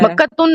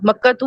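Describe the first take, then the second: First: The word ends with an added n sound. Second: The word ends on a vowel without n. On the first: The speaker calls it wrong. "मक्कातुन नहीं होता" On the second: The speaker calls it right. "मक्कातू होता है"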